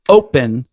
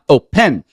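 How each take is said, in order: First: The stress is on the first syllable. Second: The stress is on the second syllable. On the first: The speaker calls it right. "you would want to make sure that it's open" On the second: The speaker calls it wrong. "and not open"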